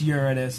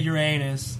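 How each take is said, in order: First: It sounds like 'urine-us', stressing the start. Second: It sounds like 'your anus', stressing the middle. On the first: The speaker calls it right. "it's Uranus. And I'm like, really? So pee's better?" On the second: The speaker calls it wrong. "don't say Uranus"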